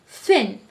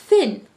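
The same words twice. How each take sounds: No difference in how they are said.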